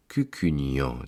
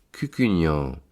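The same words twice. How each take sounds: First: Cucugnan sighed out low on one long breath. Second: Said in the usual way. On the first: Acted. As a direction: let Cucugnan fall away on a sigh. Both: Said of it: "dit-il en poussant un long soupir".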